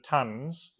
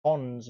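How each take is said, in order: First: Tons said like "tuns"; usual pronunciation. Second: Tons with a short O, "tonns"; spelling pronunciation. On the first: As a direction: say tons to rhyme with "buns". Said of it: "I've just always called it tons". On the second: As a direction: say tons to rhyme with "dons". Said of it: "we'd spelt something tons instead of tons". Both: Shown as a demonstration.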